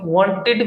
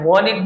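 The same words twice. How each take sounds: First: The t sound in the middle is pronounced. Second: The t sound in the middle is dropped.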